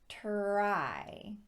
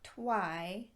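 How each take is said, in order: First: The R is said as a clear R. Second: The R is said like a W. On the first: The speaker calls it right. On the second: The speaker calls it wrong.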